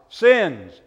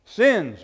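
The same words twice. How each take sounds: First: Loud, emphatic "Sins"; demonstrated shout. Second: Said in the usual way. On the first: Shown as a demonstration. Pastor showing a child he can shout it, light shout. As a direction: call out "Sins" good and loud. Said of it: "You can actually shout it".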